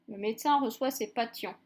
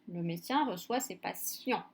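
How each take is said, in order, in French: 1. Le 'ti' se prononce avec un son t. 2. Le 'ti' se prononce avec un son s. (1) "Est-ce qu'on dit un patient?" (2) "Non, ... Donc c'est prononcé si-en"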